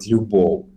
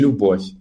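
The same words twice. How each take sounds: First: The word ends in a soft non-syllabic glide. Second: The word ends in a hard consonant. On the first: This is the Ukrainian pronunciation. The speaker calls it right. "в українській правильно не складовий звук в кінці слова" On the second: This is the Russian pronunciation. The speaker calls it wrong. "А в російській любов"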